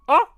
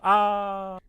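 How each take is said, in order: First: It is a loud, sudden yelp. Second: It is a flat, unemotional ah.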